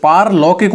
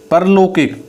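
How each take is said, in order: First: पारलौकिक with a long aa, paar-laukik; पारलौकिक with a long opening aa; correct form paarlaukik. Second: परलौकिक with a short first a, par-laukik; परलौकिक with a short opening syllable; wrong form parlaukik. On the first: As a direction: stretch the first vowel in पारलौकिक. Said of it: "पारलौकिक होता है वो". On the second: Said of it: "परलौकिक ऐसे नहीं होता". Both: Shown as a demonstration.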